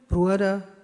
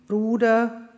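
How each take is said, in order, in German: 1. Der erste Vokal ist ein gleitender Diphthong uo. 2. Der erste Vokal ist ein einzelnes langes u. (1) "Die wurden im Mittelhochdeutschen auch noch so ausgesprochen" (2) "Auch im Rheinfränkisch-Hessischen spricht man diese einzelnen Vokale"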